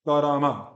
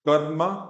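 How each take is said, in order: First: Every consonant is followed by a full vowel. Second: The r sound has no vowel after it. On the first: "और ये कारामा" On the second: "यहाँ पे जो रा है ये आधा है, इसमें स्वर नहीं है"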